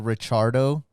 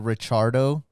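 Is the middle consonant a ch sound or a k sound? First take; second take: ch sound; ch sound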